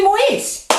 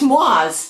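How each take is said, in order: First: Moise as moh-EEZ, slow and higher; American pronunciation. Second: Moise as MWAHZ, slow; French pronunciation. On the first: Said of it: "but we say". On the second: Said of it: "it's pronounced". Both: Shown as a demonstration.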